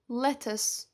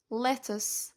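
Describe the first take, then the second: No difference in how they are said.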